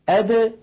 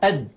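First: The final d is released with a slight bounce. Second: The final d is closed abruptly without release. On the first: The speaker calls it right. "بالتباعد بين طرف اللسان وما يحاذيه من مخرج الدال هكذا" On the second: The speaker calls it wrong. "ولا ينطقونها"

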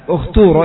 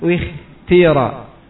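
First: The vowel after kh is a clear u. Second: The vowel after kh blends u and i. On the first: "di dhammah karena ta-nya di sini dhammah" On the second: "atau ismam berarti dua-duanya di ismam"

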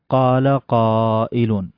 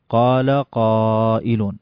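The two takes are said the same way.

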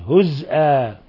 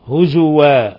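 First: The z is silent, then a glottal stop. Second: The z carries a u vowel, then a w. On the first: "بإسكان الزاي مع الهمز" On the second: "بالواو وضم الزاي"

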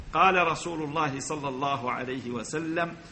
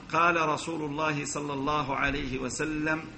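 Both takes have the same delivery.

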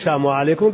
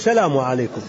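First: The L sound in salam is swallowed. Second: The L sound in salam is clearly pronounced. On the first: The speaker calls it wrong. "ما تقول سلام عليكم" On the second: The speaker calls it right. "اللام هذه ما تبلعها"

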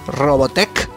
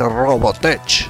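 First: The word ends with a 'k' sound. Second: The word ends with a 'ch' sound. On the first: "no en k" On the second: "termina en ch"

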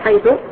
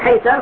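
First: The word ends in the vowel u. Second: The word ends in the vowel a. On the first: "يجوز لك أن تبنيها على الضم" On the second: "على الفتح وتقول حيث"

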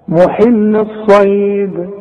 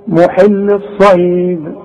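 No difference in how they are said.

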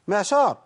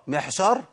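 First: The consonant is a voiced ain sound. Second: The consonant is a breathy haa sound. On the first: The speaker calls it right. "هي محشار ولا معشار؟ معشار" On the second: The speaker calls it wrong. "ولا اقول محشار"

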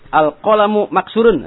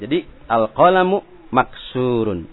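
First: The vowel in 'surun' is short. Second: The vowel in 'surun' is long. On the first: The speaker calls it wrong. "salah juga" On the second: The speaker calls it right. "harus baca panjang seperti maksurun"

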